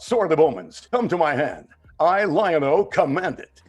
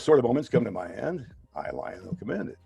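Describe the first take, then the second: First: It is said dramatically with pauses and more force. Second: It is said casually in a plain conversational voice. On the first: "on T V, it comes out ... A little more dramatic" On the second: "while I'm sitting here talking to you guys, I'll say something like"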